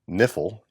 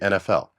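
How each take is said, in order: First: It is pronounced as a single word. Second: It is pronounced as three separate letters. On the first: The speaker calls it wrong. "You don't say" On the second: The speaker calls it right. "you just say"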